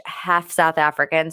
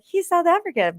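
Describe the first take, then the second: First: Said in the usual way. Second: Lightly voiced, high-pitched claim; high mock-casual quip. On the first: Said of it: "I pick whichever one". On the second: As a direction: toss it off high and breezy on "South African". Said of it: "I'll be like".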